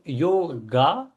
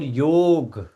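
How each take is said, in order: First: The word ends with a final vowel sound. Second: The word ends on a consonant, no final vowel. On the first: This is the English form. "in English, we add another A at the end" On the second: This is the original Vedic form. "in Vedic culture, the word is called yog"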